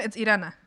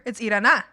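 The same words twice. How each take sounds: First: Said in the usual way. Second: IRANA with the accented syllable punched; "Irana" with emphasis moved onto the accent; accented syllable stressed. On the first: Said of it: "since I have no accent". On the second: Shown as a demonstration. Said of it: "If I have an accent up here".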